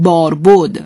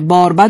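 First: The second syllable is said with an 'o' vowel. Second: The second syllable is said with an 'a' vowel. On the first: The speaker calls it wrong. "مردم به اصطلاح که بهش میگن غلط مصطلح، دیگه به مرور زمان بهش بود میگن" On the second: The speaker calls it right. "بهتره که با فتحه خوانده بشه"

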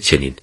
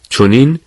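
First: The first vowel is a front 'e'. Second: The first vowel is a rounded 'o'. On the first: This is the form used today. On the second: This is the older form of the word.

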